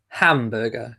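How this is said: It is said in a British accent. "We would say huh, as in hamburger"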